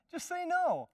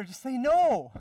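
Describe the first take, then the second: First: High, laughing through the repeat. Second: Loud, high, hammering the word no; emphatic shout. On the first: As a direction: laugh while you insist on no. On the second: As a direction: slam the no down hard. Preacher urges saying a plain no. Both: Acted.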